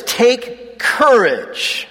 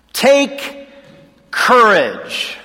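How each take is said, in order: First: Said in the usual way. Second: Take, pause, then courage, drawn out and weighted; slow emphatic. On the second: Shown as a demonstration. Preacher urging his listeners, Take ... courage with a weighty pause. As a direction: lean on Take, hold a beat before courage. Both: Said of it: "In other words, take courage".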